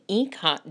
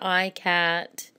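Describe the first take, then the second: First: The first syllable does not sound like 'eye'. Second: The first syllable sounds like 'eye'. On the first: The speaker calls it right. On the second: The speaker calls it wrong.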